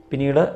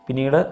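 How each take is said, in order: No difference in how they are said.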